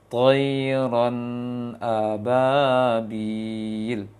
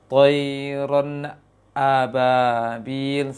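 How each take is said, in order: First: The n flows straight into the hamzah. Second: The n lingers fully before the hamzah starts. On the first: The speaker calls it right. "dalam proses menurunkannya ... kemudian baca hamzahnya. ... Seperti itu" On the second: The speaker calls it wrong. "menunggu uh, maksimal lisannya kelu- turun baru baca hamzahnya ... salah juga"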